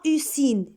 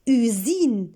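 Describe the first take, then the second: First: The S is pronounced as a hissing s. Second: The S is pronounced as a buzzing z. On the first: The speaker calls it wrong. "et pas usine" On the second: The speaker calls it right. "هنا غادي نقول usine"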